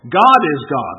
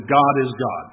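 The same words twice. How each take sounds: First: Both God punched louder, falling tune; God is God with a heavy louder hit on each God; stress on God. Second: Said in the usual way. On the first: Shown as a demonstration. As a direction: land hard on each God in God is God. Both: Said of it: "Let me put the vocal emphasis on it".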